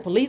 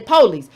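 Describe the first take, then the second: First: It is said in a general American accent. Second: It is said in a Southern US accent. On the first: "I don't say police" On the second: "I'm from the South. I say police"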